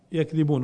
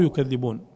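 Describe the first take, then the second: First: يكذبون said yakdhibūn; light single dhal. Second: يكذبون said yukadhdhibūn; doubled dhal. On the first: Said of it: "الأولى بالتخفيف". (يكذبون بفتح الياء وتخفيف الذال) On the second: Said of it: "والثانية بالتشديد". (يكذبون بضم الياء وتشديد الذال) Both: Shown as a demonstration.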